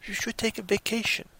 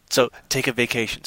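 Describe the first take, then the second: First: Lightly voiced doctor, higher and softer; a hint of a gentle doctor's advice; doctor quote. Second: Said in the usual way. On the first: Doctor advising the stressed guy, lightly voiced and soft. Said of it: "and his doctor says".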